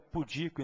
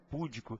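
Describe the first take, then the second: First: The stress is on the second syllable. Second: The stress is on the first syllable. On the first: The speaker calls it right. "O certo é pudico" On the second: The speaker calls it wrong. "e não púdico"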